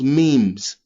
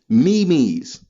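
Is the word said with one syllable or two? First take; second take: one; two. First: The word is said as one syllable. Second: The word is said as two syllables. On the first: This is how everyone has agreed to say it. The speaker calls it wrong. "who decided that that spells memes?" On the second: This is how the letters actually spell it. The speaker calls it right. "That spell me me's"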